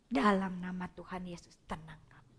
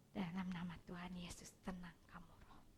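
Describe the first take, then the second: First: Soft, low voiced prayer; quiet spoken prayer. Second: Soft unvoiced whispered prayer over a child. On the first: Counselor repeating the calming prayer softly, now voiced. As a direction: murmur the calming prayer gently. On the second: Counselor showing how she whispers a calming prayer to a child. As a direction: breathe the prayer in a hush. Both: Shown as a demonstration. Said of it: "saya biasa pakai doa".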